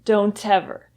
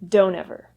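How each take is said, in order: First: The T of don't is pronounced strongly. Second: The T disappears and the words blend together. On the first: The speaker calls it wrong. "When the T sound is pronounced so strongly like that" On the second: The speaker calls it right. "the words should blend together into"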